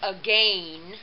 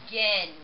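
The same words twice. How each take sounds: First: The second vowel is a long A sound. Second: The second vowel is a short E sound. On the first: The speaker calls it wrong. "So it actually come out to sound like again" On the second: The speaker calls it right. "it sounds more like this. Uh, again, with the short E"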